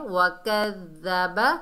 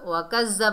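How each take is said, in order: First: The d sound is said softly and gently. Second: The d sound is said harshly, like a j. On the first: The speaker calls it right. "नरमी से अदा करना है" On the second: The speaker calls it wrong. "नहीं पढ़ना क्योंकि दाल जो है जा बन जाएगा, सख्ती से अदा होगा"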